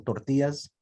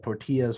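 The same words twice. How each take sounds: First: TORTILLAS with a Spanish accent; lightly put-on Spanish pronunciation. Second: Said in the usual way. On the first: Shown as a demonstration. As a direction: say "tortillas" as a Spanish speaker would. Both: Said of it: "do you add the accent".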